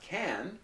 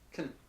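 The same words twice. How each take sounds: First: The word is full, clear and fully stressed. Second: The word is short, quick, quiet and reduced. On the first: The speaker calls it wrong. "the pronunciation is not can" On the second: The speaker calls it right. "It's very short, very quick, and it's not loud"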